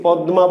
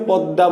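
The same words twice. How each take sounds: First: "পদ্মা" as pad-ma; spelling pronunciation. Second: "পদ্মা" as pad-da; everyday pronunciation. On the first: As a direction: keep d and m distinct in "পদ্মা". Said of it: "তাই কি বলছি". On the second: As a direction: swallow the m into a double d in "পদ্মা". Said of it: "বলছি না পদ্মা বলছি". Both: Shown as a demonstration.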